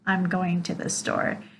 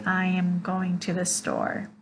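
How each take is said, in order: First: I am is contracted into one syllable. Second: I am is said as two full words. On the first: The speaker calls it right. "but rather" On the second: The speaker calls it wrong. "we won't say"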